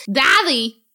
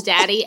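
First: DADDY as a higher "thathee"; toddler mispronunciation. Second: Said in the usual way. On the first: Retold or imitated. Parent imitating son calling his dad, DADDY lisped "thathee". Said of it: "he goes". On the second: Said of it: "That's how he says daddy".

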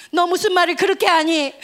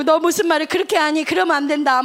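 First: Loud, upset scolding; mock scolding from the sister. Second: Loud, hurt scolding. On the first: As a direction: reproach him sharply, hurt. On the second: Retold or imitated. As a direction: scold her for laughing at the loss. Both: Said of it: "막 이러면서 언니가 막 뭐라 했어".

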